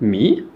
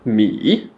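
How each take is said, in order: First: The pitch rises from low to high. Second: The pitch falls low, then rises again. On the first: "une intonation montante du grave vers l'aigu" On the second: "une intonation qui descend vers le grave et on remonte vers l'aigu"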